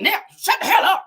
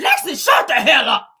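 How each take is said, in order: First: High, loud mock yell; imitated snapping. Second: Loud, higher-pitched mock outburst; imitated snapping. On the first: Retelling Nell snapping off at the table, high mock yell. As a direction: act out a sudden furious shutdown. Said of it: "once Nell snapped off". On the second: Nell snaps at Lexi chiming in, loud retold yell. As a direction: snap it loudly, acting out an angry relative. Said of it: "Nell snaps on her saying".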